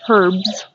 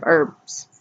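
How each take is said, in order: First: "herbs" said with the H pronounced; "herbs" with an audible initial H; sounded H. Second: "herbs" said with a silent H, as "erbs"; "herbs" starting straight on the vowel. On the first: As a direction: breathe a clear H at the start of "herbs". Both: Shown as a demonstration. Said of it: "depending on how you say it".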